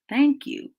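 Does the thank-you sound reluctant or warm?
warm. It is said warmly without a sigh.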